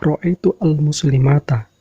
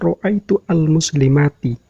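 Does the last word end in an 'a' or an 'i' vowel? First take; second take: a; i. First: The last word ends in an 'a' vowel. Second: The last word ends in an 'i' vowel. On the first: The speaker calls it wrong. "Ini yang salah" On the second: The speaker calls it right. "Yang benar adalah ... dengan menggunakan harokat kasroh"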